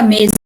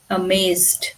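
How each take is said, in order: First: The middle consonant is not a buzzing z. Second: The middle consonant is a clear buzzing z. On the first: The speaker calls it wrong. "not amazed" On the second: The speaker calls it right.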